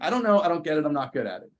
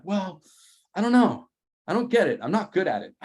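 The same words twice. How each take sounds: First: Whiny helpless. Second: Higher, louder whiny "I don't know"; whiny helpless. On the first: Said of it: "I was like". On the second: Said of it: "And I'm like". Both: Retold or imitated. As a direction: play it helpless and exasperated.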